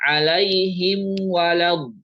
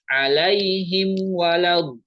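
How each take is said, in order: No difference in how they are said.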